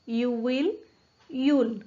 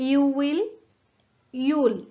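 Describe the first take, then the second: No difference in how they are said.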